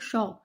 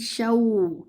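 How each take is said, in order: First: The 'aw' glide is cut short. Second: The 'aw' glide is given its full sound. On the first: The speaker calls it wrong. "Don't read it like shaw" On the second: The speaker calls it right. "give the complete sound of your vowlinia"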